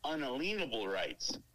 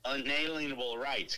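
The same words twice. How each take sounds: First: The word is said as un-a-lien-able. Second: The word is said as un-alien-able. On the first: The speaker calls it right. "It's pronounced unalienable rights. Key word being lien" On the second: The speaker calls it wrong. "they pronounce it this way"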